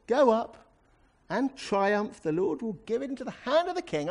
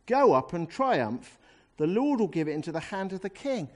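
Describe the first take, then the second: First: High, over-bright mock enthusiasm; very sarcastic. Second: Said in the usual way. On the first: Shown as a demonstration. Prophet humouring the king with a false promise, very sarcastic. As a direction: gush it with obvious sarcasm, pitched high. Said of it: "must have said it very sarcastically". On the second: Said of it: "that's how I used to read this chapter".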